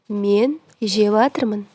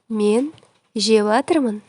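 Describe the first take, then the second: No difference in how they are said.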